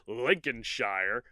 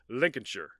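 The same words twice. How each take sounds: First: The word is said just as it is spelled. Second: The word's ending is said short and reduced. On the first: The speaker calls it wrong. "because it's spelled Lincolnshire" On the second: The speaker calls it right. "but I know now that it's more like Lincolnshire"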